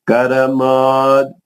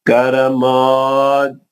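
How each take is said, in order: No difference in how they are said.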